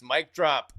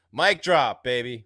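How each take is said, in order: First: Said in the usual way. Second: Louder, pumped-up hype call; excited shout. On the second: Real, not acted. Host hyping a viewer's comment on stream, excited shout. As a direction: shout it like a mic drop.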